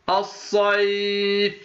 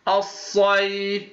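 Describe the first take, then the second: No difference in how they are said.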